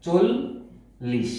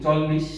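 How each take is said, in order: First: চল্লিশ as slow "chol... lish", closed o; correct o-vowel form. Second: চল্লিশ as "chawl-lish", open vowel; wrong open-vowel form. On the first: Teacher modelling চল্লিশ, slow chol-lish with o. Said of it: "ওকার দিয়ে করতে হবে". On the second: Teacher showing faulty চল্লিশ, chawl-lish with open vowel. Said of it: "এই উচ্চারণটি হবে না". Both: Shown as a demonstration.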